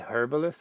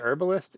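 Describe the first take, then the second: First: It is said with a pronounced H, British style. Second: It is said with a silent H, American style.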